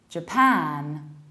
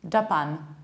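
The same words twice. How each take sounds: First: The stress is on the second syllable. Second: The stress is on the first syllable. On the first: The speaker calls it right. "you need to stress the second syllable, not the first one" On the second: The speaker calls it wrong. "the one that is usually pronounced like Japan"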